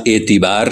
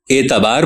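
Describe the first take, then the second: First: اعتبار said as etibaar with an open e; اعتبار opening on an e sound; zer majhool. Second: اعتبار said as itibaar with a clear i; اعتبار opening on a bright ee sound; zer maroof. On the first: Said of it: "زیر مجہول کے ساتھ". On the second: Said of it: "یعنی زیر معروف کے ساتھ". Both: Shown as a demonstration.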